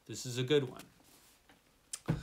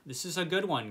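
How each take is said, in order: First: "good" stretched long and slow; slow, lingering appreciation; slow, drawn out. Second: Said in the usual way. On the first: Shown as a demonstration. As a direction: savour each word of This is a good one.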